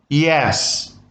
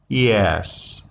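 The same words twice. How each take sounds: First: The pitch rises from low to high. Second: The pitch falls from high to low. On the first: The speaker accepts or agrees. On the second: The speaker is bored and uninterested. "Falling tone"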